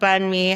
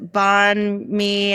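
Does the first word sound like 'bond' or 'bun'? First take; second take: bun; bond. First: The first word sounds like 'bun'. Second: The first word sounds like 'bond'. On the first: The speaker calls it right. "how it's supposed to sound" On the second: The speaker calls it wrong. "it'd be like this uh, bond me ... you're saying it wrong"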